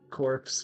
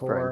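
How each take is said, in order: First: The final p and s sounds are pronounced. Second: The final p and s sounds are silent. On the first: The speaker calls it wrong. "It's the word no one can say right because it's" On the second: The speaker calls it right. "It's core"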